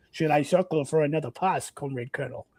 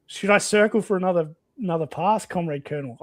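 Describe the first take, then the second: First: Rereads the line in a Russian accent. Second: Said in the usual way. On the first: Shown as a demonstration. Soviet pilot asks his colonel, in Russian accent. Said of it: "I should read that in a, in a Russian accent". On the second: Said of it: "I feel like I should read that in a".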